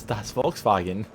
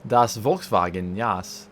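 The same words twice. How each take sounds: First: Slow, hammed-up German accent again; drawn-out joke German accent; bad German accent. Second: Slow, hammed-up German accent on das Volkswagen; mock German, stretched out slowly; bad German accent. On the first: Teasing the car with a bad German accent. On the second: Mocking the old Volkswagen in a bad German accent. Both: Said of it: "having a terrible German accent".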